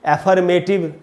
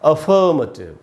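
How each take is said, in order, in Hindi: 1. शब्द 'eh' ध्वनि से शुरू होता है। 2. शब्द 'uh' ध्वनि से शुरू होता है।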